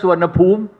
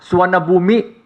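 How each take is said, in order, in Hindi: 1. यह थाई तरीके से उच्चारित होता है। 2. यह भारतीय तरीके से उच्चारित होता है। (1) "In Thailand, we pronounce as" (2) "In India, you pronounce as"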